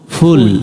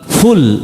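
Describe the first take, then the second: First: The first consonant is a soft sound near p. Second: The first consonant is a bursting fricative f. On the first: The speaker calls it right. "আমরা কি বলবো? ফুল। ফুল ফুল না, পুলও না, কাছাকাছি।" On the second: The speaker calls it wrong. "যেমন ফুল এটা বলবো না"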